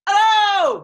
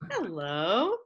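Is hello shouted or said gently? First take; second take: shouted; gently. First: It is shouted very loudly. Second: It is said gently and nicely.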